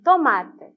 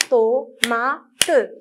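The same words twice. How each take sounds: First: Said in the usual way. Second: "Tomate" split as to, ma, te; "Tomate" with the final te sounded as its own syllable. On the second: Shown as a demonstration. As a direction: count out "Tomate" in three separate beats. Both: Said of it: "Combien de syllabes?".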